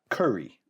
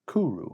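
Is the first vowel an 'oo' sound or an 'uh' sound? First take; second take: uh; oo. First: The first vowel sounds like 'uh'. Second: The first vowel sounds like 'oo'. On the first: The speaker calls it wrong. "not curry" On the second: The speaker calls it right. "I think that's how they pronounce it"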